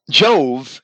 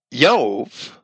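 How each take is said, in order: First: Said in the usual way. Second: "Jove" said YOVE, with a Y for the J; Latin pronunciation. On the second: Shown as a demonstration. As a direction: soften the J of Jove into a Y. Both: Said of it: "because there's no J".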